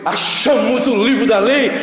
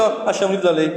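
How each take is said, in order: First: It is shouted with excitement. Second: It is said casually, without excitement.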